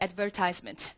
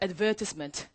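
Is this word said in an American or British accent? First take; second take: American; British. First: It is said with an American accent. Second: It is said with a British accent. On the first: "미국식 발음으로 한번 따라해 보도록 할까?" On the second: "영국식으로 따라하세요"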